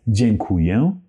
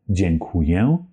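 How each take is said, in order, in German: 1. Der letzte Vokal klingt stark nasal. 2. Der letzte Vokal klingt stark nasal.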